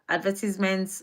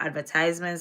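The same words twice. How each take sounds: First: It is said with a non-American pronunciation. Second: It is said with an American pronunciation.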